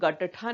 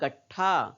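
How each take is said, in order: First: The middle t is said fully with a vowel. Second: The middle t is short, joined to the next. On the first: The speaker calls it wrong. "हम लोग गट्ठा नहीं बोल रहे हैं" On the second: The speaker calls it right. "ट का उच्चारण आधा ही कर रहे हैं"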